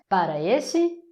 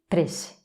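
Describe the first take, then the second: First: Both syllables of para are fully pronounced. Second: Everything merges quickly into one short word.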